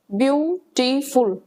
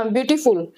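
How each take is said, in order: First: beautiful said slowly, split into its syllables. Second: Said in the usual way. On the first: Shown as a demonstration. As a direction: break beautiful into separate beats to show it can't be said in one go. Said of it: "बीच में word में interruption आ रही है". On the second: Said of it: "जिसको हम एक बार में नहीं बोल पा रहे हैं".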